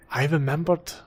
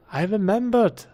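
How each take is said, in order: First: Said in the usual way. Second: Louder, higher, triumphant; proud and gleeful; excited. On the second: Real, not acted. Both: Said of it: "repeats it with more energy".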